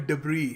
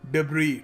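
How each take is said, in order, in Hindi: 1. शब्द का अंत स्वर पर होता है, s मूक है। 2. शब्द का अंत स्वर पर होता है, s मूक है।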